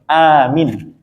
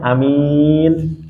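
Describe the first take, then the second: First: The first vowel is long, the second short. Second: The first vowel is short, the second long. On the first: Make it safe. "a-nya dipanjangkan, mi-nya pendek" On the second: A trustworthy person. "a-nya pendek, mi-nya yang panjang"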